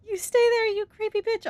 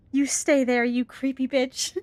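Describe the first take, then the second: First: Repeated much higher, squeaky and mocking; mock squeak. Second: Said in the usual way. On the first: Mocking the creepy monster in a squeaky voice. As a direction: squeak it out as a joke.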